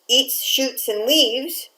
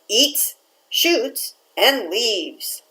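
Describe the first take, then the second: First: It is said without pauses between words. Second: It is said with pauses between words.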